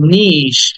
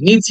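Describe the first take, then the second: First: The word ends with a long 'sh' sound. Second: The word ends with a 'chee' sound. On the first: The speaker calls it right. "But উচ্চারণটা হবে এরকম" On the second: The speaker calls it wrong. "আমরা এটাকে নিচি বলি"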